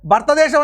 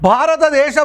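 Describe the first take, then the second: First: The word is said reduced, with vowels dropped. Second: The word is said in full with every vowel. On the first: This is how folk speakers say it. "భర్తదేశం అని అంటారు" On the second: This is the standard pronunciation. "భారతదేశం అనాలి"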